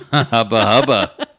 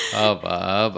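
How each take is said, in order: First: Louder, laughing hubba hubba; loud gleeful hubba hubba. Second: Said in the usual way. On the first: Retold or imitated. Echoing Tony's catchphrase, loud and laughing. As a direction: belt it out through a laugh.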